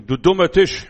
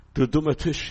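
First: Put-on loud, childish scolding of the table; child's angry outburst. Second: Said in the usual way. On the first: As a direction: shout it like a cross little kid. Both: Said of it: "dann sagen sie".

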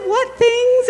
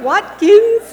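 First: "What things?" said as two words, WHAT then THINGS, through high loud laughter; "What things?" laughed out as two separate words, what plus things; misheard "What things?". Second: "Watkins." said as one name, WAT-kins, through high loud laughter; "Watkins." laughed out as a single surname. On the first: The speaker laughing hard, says "What things?" as two words. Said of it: "I thought she said". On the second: The speaker laughing hard, says the surname "Watkins." as one word. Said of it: "she's saying". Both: Real, not acted.

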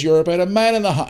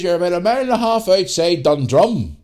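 First: Said in the usual way. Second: Put-on high, loud country accent from Northern Ireland. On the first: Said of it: "and I'll put the accent on here". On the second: Farmer giving directions to lost lads, country accent. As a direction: broaden it into a rural country accent. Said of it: "country accent".

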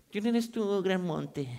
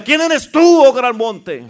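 First: Soft, half-hearted challenge; feeble, unconvincing. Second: Loud, high indignant challenge. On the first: Preacher mimicking a timid congregation facing the mountain, feeble. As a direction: say it weakly, with no force behind it. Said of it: "Ay, sí, ya menos se va a mover". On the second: Preacher showing the congregation how to confront a mountain, indignant. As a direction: hit "tú" high and hard, fed up with it. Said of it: "dígalo como que ya se indignó de esa montaña". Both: Shown as a demonstration.

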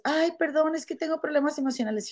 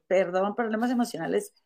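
First: Higher, hurried mock apology; imitating an apologetic employee. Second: Retold dismissive echo. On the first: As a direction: lightly mimic a pleading excuse. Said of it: "Y después". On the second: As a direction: throw the excuse back, unimpressed. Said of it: "Y yo".

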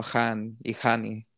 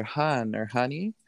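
First: Han and Hani with Spanish vowels and a throaty H; slow Spanish-accented Han y Hani. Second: Said in the usual way. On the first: Shown as a demonstration.

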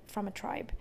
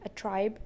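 First: Whispered aside. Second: Said in the usual way. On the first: Real, not acted. Telling a stranger's story, she whispers the correction. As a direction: drop to a soft breathy whisper.

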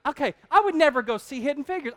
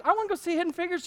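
First: Said in the usual way. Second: High, quick mock enthusiasm; fast fake eager. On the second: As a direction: rush it out pretending to want it. Fake eager reply to wife.

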